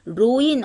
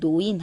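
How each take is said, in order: First: The word begins with an R sound. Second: The word begins with an N sound. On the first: The speaker calls it wrong. "첫 음절로 오면 로인 안 하고" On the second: The speaker calls it right. "노인 하죠"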